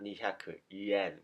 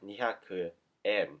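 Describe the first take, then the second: First: The last word starts with a y sound. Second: The last word starts with a plain vowel. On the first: The speaker calls it wrong. "not にひゃく yen" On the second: The speaker calls it right. "just say にひゃくえん"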